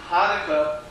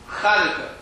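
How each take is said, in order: First: The word begins with a plain h sound. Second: The word begins with a throaty ch sound. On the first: The speaker calls it wrong. "that's not the right way of saying it" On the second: The speaker calls it right. "It's this"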